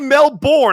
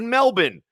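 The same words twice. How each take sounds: First: Melbourne is said in a non-Australian way. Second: Melbourne is said the way Australians say it. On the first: This is how an outsider would say it. The speaker calls it wrong. "I didn't say Melbourne" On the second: This is how a local would say it. The speaker calls it right. "I said Melbourne"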